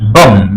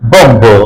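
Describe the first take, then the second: First: The final b sound is silent. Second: The final b sound is pronounced. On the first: The speaker calls it right. "M এর পরে বি আছে সেজন্য বি উচ্চারিত হবে না।" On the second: The speaker calls it wrong. "এরকম হবে না"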